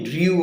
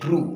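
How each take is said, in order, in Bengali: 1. শব্দটিতে স্বরধ্বনির আগে 'y' এর glide আছে। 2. শব্দটিতে সাধারণ 'oo' স্বরধ্বনি আছে, কোনো গ্লাইড নেই। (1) "অনেকে ড্রিউ বলে কারণ ড্রিউটা একটু উচ্চারণ রং" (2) "উচ্চারণ হবে ডিকশনারি ড্রু"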